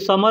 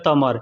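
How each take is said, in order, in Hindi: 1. यह शब्द s ध्वनि से शुरू होता है। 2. यह शब्द t ध्वनि से शुरू होता है। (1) "जैसे समर होता है ना" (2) "लेकिन लोग बोलते हैं तमर"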